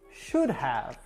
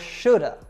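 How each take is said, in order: First: The word have is pronounced in full. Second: Have is reduced to a short uh sound. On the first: The speaker calls it wrong. "they taught you to always say have like this" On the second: The speaker calls it right. "It should be ... or shoulda"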